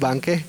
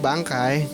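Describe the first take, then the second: First: It is said in a casual colloquial pronunciation. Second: It is said in the standard formal pronunciation. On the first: This is the easier everyday form. "lebih gampang cernanya kalau ngomong" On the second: This is the proper standard form. "kalau ngomong bahasa Indonesia yang baik dan benarnya"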